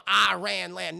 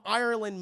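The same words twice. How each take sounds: First: "Iran land" as two drawn-out words; mispronounced Ireland. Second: Said in the usual way. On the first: Retold or imitated. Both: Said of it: "No, I, she's from Ireland".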